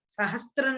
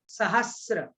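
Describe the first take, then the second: First: The middle has a t sound: 'str'. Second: The middle has no t sound: 'sr'. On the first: The speaker calls it wrong. "सहस्त्र नहीं" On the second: The speaker calls it right.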